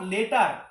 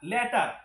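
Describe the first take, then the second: First: The first vowel sounds like the one in 'bet'. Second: The first vowel sounds like the one in 'cat'. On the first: The speaker calls it wrong. "Not লেটার" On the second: The speaker calls it right. "এটাকে আমরা ল্যাটার বলবো"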